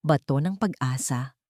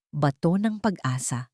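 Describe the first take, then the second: No difference in how they are said.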